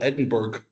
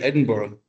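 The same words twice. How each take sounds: First: The name ends with a hard 'berg' sound. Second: The name ends without a hard 'berg' sound. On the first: This is how outsiders say it. The speaker calls it wrong. "Everyone seems to call it" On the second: This is how locals say it. The speaker calls it right. "we say"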